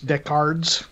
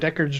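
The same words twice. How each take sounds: First: The word is said with a British accent. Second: The word is said with an American accent.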